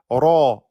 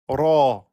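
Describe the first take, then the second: Both takes have the same delivery.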